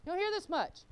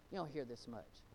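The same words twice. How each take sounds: First: HEAR pitched high, then falling on MUCH; emphatic repeat. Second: Low, soft, falling delivery; quiet remark. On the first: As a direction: raise the pitch sharply on "hear" to drive it home. Repeats line higher for emphasis. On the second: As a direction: say it low and under your voice. Repeats line in contrasting delivery. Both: Real, not acted.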